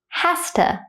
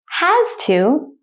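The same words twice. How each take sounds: First: It is said quickly at natural speed. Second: It is said slowly and carefully. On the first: "then at a native speaker speed second" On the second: "I will say it slowly first"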